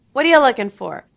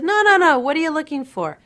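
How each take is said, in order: First: Said in the usual way. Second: Higher, louder, won't take no; mock insistent matchmaker, pitched up; insisting matchmaker. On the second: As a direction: push the question back at him. Matchmaker insists a second time.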